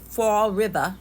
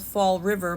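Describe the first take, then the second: First: It is said in a Fall River accent. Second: It is said in a standard accent.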